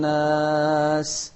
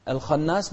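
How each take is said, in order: First: Slowly chanted "الخناس", thick kha, light long naas; heavy kha only. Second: "الخناس" with the naas darkened like the kha; wrongly heavy ending. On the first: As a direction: darken just the kha of "الخناس". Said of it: "بس الخاء المفخمة". (تفخيم الخاء وحدها في "الخناس" مرتلة) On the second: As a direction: carry the thick sound through all of "الخناس". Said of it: "لا، بس الخاء المفخمة". (تفخيم النون والألف خطأً في "الخناس") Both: Shown as a demonstration.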